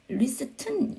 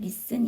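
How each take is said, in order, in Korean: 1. t 소리는 중간에 발음해요. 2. t 소리는 아예 발음하지 않아요. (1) "영국에서는 리스튼 이렇게" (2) "미국에서는 아예 T 사운드를 안 해서 그냥 리슨 이렇게"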